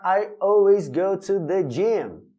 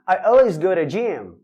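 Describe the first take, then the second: First: The words are said slowly and kept separate. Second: The words run together quickly with linked sounds. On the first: "Eu não preciso falar" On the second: "vamos falar bem naturalmente"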